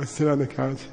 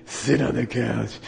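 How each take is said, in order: First: Said in the usual way. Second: Slow command from a damaged-voice lama; Darth Vader. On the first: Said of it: "So I'm like". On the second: Retold or imitated. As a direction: imitate a teacher repeating an order through a crushed voice box. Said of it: "he talked like Darth Vader".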